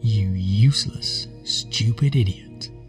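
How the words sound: A slow, low, sultry voice. "slow that critical voice down and change the tone of it. Make it sound sexy"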